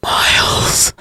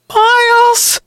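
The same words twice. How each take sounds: First: Weak, drawn-out whisper. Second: Very high-pitched call for help. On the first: Freezing sister whispers after her departed brother, whisper. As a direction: whisper the name with no voice left. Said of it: "Allison whispered as her teeth began to chatter". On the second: Sister pleading with her unmoving brother above, calling out. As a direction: call up to him, high and urgent. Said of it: "she called out again". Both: A narrator's reading.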